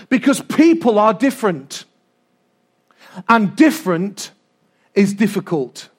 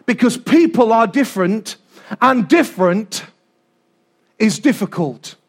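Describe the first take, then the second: No difference in how they are said.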